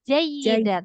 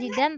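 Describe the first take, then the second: First: The word has three syllables with a doubled y. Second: The word is shortened to two syllables. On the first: The speaker calls it right. "tapi jayyidan" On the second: The speaker calls it wrong. "Bukan jidan"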